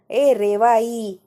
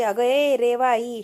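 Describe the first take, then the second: First: Louder, very drawn-out call; louder yell. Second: Slow, drawn-out call; mock yell. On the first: Retold or imitated. Child told to shout louder, drawn-out mock yell. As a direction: stretch the name out in a raised call. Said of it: "अजून जोराने ओरड". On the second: Child calls out for attention, drawn-out mock yell. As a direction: imitate a yell, stretching the name. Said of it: "जोरात किंचाळते".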